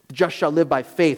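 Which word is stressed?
faith. The stress is on "faith".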